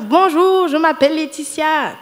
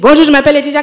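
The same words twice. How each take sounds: First: It is spoken at a calm, slow pace. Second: It is spoken very fast and rushed. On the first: The listener can understand it. The speaker calls it right. "Il faut dire bonjour, je m'appelle Laetitia" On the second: Nobody can understand it. The speaker calls it wrong. "je pense que personne n'a compris"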